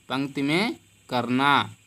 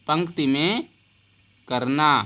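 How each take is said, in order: Both takes have the same delivery.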